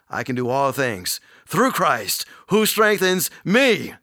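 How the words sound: The stress falls on the word Christ. The strength comes from Christ, not oneself. The speaker calls it right. "That's where our strength comes from. In Christ"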